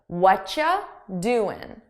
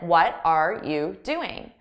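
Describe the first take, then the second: First: The words blend into a shortened, reduced form. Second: Each word is pronounced separately and in full. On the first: "I combine the sounds into one" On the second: "than what are you doing"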